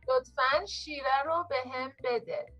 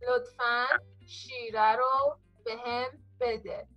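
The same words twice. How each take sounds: First: It is said at normal speed. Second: It is said slowly.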